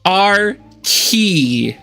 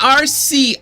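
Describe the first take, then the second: First: The second syllable starts with a k sound. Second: The second syllable starts with an s sound. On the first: The speaker calls it right. "It is pronounced R key" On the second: The speaker calls it wrong. "not R C"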